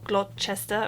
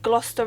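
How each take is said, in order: First: It is said with the middle letters sounded. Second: It sounds like 'Gloss-ter', with the middle letters silent. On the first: The speaker calls it wrong. "Not Gloucester or Gloucester or anything like that" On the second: The speaker calls it right. "it's basically pronounced as if it was spelled G L O S S, Ster"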